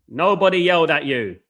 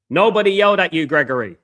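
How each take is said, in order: First: Loud retort. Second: Higher, louder retort at a viewer. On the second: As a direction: snap back loud and high. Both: Real, not acted. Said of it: "I've not disagreed with you once today".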